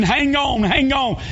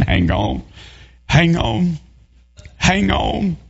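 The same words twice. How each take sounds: First: Much higher, hollered hang on; family running along the bank yelling to her; retold hollering. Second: Hushed, inward hang on; preacher praying alone for the swimmer; silent crying plea. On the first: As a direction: yell encouragement across the river. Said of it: "hollering and screaming". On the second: Retold or imitated. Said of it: "sat there crying in my heart".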